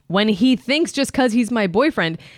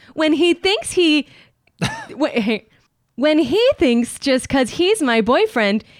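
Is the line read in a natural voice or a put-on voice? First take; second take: natural; put-on. First: It is read in the speaker's ordinary voice. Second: It is read in a put-on TikTok voice.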